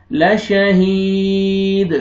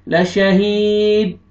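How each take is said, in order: First: लशहीद slow, final द echoed twice; qalqala on dal. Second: लशहीद without a bounce on final द; wrong reading. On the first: Teacher demonstrating the correct qalqala. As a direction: bounce the द at the end of लशहीद. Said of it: "double आवाज आएगा दाल का". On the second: Teacher showing the wrong way to read. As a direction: clip लशहीद flat as the mistake. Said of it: "ऐसे नहीं पढ़ना". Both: Shown as a demonstration.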